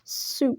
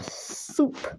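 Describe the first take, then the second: First: The first sound is a plain s. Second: The first sound is a lisped th.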